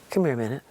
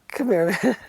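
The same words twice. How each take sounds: First: Said in the usual way. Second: Mean it, no joking now; very serious. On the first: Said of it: "He goes". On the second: Retold or imitated. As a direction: a singer calling her over, very serious. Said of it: "Very serious".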